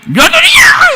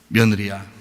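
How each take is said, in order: First: It is called out in a high-pitched voice. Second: It is said in a normal, calm pitch. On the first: The mother-in-law is nagging and demanding. The speaker calls it wrong. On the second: The mother-in-law is speaking with dignity. The speaker calls it right.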